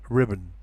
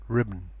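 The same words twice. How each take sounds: Both takes have the same delivery.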